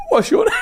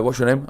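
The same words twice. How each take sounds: First: Much higher, louder, breaking into laughter; laughing squeal. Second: Said in the usual way. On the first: Retold or imitated. Host retelling his blunder to co-host, squealed through laughter. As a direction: squeal the question as you crack up.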